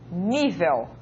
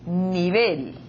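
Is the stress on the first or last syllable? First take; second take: first; last. First: The stress is on the first syllable. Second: The stress is on the last syllable. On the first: "en portugués" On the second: "palabra aguda terminada en L"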